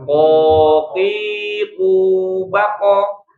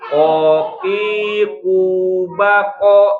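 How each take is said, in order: First: The final bounce is clipped short and quick. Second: The final bounce is drawn out like a full vowel. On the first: The speaker calls it right. "Harusnya lebih cepat durasinya" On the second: The speaker calls it wrong. "jangan bacanya koki kubako ... Itu malah berharokat fathah"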